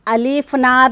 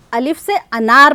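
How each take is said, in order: First: अलिफ नार with the "a" of अनार dropped; teacher shows the mistake, अलिफ नार with no अ sound before नार; wrong reading, अलिफ नार said as the mistake to avoid. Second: अलिफ से अनार with the full "a" sound of अनार; teacher models अलिफ से अनार, sounding the अ of अनार clearly; right way to say it. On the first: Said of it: "नहीं पढ़ते". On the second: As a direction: correct reading, अलिफ से अनार said clearly for the class. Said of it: "अलिफ से अनार पढ़ते हैं". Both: Shown as a demonstration.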